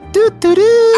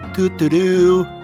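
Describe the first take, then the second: First: It is said with strong, forceful emphasis. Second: It is said plainly, without extra emphasis.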